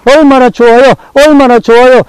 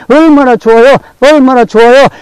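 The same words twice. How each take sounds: The two takes are said the same way.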